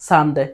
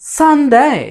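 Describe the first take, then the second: First: The first syllable is said without extra pressure. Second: The first syllable is said with strong pressure.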